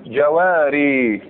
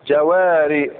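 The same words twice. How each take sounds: First: جواري stretched slowly, the original form; slow drawn-out جواري. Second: Said in the usual way. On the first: Shown as a demonstration. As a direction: draw out جواري syllable by syllable, slow. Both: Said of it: "بالسيف عليك تقول الأصل".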